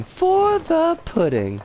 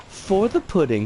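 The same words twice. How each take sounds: First: "for the pudding" drawn out slowly up high. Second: Said in the usual way. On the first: Shown as a demonstration. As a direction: stretch "for the pudding" slow and high.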